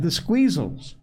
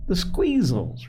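First: Said in the usual way. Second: High, drawn-out, mildly irritated repeat; irritable. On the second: A narrator's reading. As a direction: repeat THE SQUEEZELS slowly, pitched up, a touch testy. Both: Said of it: "repeated Joel irritably".

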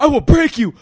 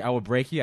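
First: I will break you screamed high and loud; full-force yell; screaming threat. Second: Said in the usual way. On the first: Retold or imitated. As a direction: roar the word break. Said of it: "So I'm like". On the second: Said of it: "I kept saying".

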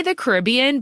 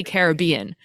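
First: Caribbean with the stress on RIB; stress on second syllable. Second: Caribbean with the stress on BEE; stress on third syllable. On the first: Host explaining her usage, Caribbean as kuh-RIB-ee-un. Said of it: "I say the Caribbean". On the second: Host giving the film title's version, Caribbean as karr-uh-BEE-un. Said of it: "I say Caribbean". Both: Shown as a demonstration.

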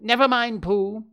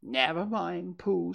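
First: High, loud interruption; impatient, high-pitched dismissal. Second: Gentle, higher little voice; comforting. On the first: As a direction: cut in and brush it aside. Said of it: "said Piglet impatiently". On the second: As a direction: soothe a sad friend. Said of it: "said Piglet comfortingly". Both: A narrator's reading.

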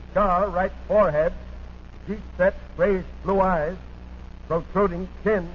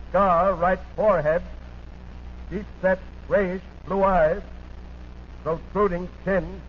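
The two takes are said the same way.

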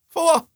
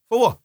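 First: Pitched way up in disbelief; high, outraged "what"; incredulous cry. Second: Said in the usual way. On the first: Real, not acted. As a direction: cry it out, stunned and indignant. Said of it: "outraged high repeat". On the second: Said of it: "plain then outraged repeat".

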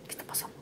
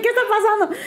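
First: Hushed, baffled aside; bewildered aside. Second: High, laughing mock bewilderment; bewildered squeal. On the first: Retold or imitated. Bride-to-be wondering during the proposal, hushed. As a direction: barely voice it, as if thinking it. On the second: Woman retelling her confusion at the proposal, high and laughing. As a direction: pitch it way up in baffled disbelief. Same question retold, now high.

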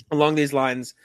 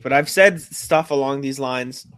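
First: Said in the usual way. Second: Slowed by hiccups; hiccuping mid-sentence. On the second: Real, not acted. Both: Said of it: "my hiccups are brutal".

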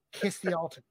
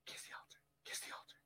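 First: Said in the usual way. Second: Hushed, voiceless stage prompt; imitated whisper. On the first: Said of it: "talking to the Monsignor who can't hear". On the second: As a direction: whisper a discreet cue to a colleague. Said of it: "He's whispering".

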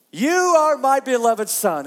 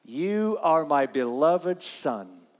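First: Loud proclamation. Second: Solemn reading. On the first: God's voice proclaimed loudly. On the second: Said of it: "what did it say?". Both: Shown as a demonstration.

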